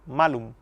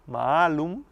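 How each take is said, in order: First: The first vowel A is kept short. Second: The first vowel A is held long. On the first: The word means apple. The speaker calls it wrong. "la leyeron como si la A fuera corta en la pronunciación. Era malum" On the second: The word means bad. The speaker calls it right. "en lugar de leer malum con la A larga"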